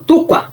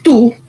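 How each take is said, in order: First: The word is unstressed and runs into the next. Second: The word is stressed and stands apart. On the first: It is the possessive meaning your. "Y el otro" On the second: It is the pronoun meaning you. "ahí lleva la barrera de sonido"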